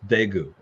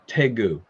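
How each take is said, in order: First: The city name is said the current way. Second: The city name is said the older way. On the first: This is how people say the name today. "but now you now people refer to it as Daegu" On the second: This is how the name was said years ago. "when I visited Korea, you know, twenty years ago or so"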